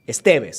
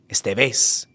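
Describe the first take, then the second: First: The stress falls on the second syllable. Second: The stress falls on the last syllable. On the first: The speaker calls it right. "So, second syllable" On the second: The speaker calls it wrong. "If you had no accent, it'd be Estevez. ... It's not that"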